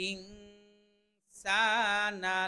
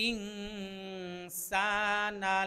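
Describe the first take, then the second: No difference in how they are said.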